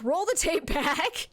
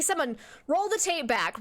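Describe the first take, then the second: First: Slow, drawn-out demand; slow emphatic repeat. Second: Said in the usual way. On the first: Pretend. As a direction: drag out the request mockingly.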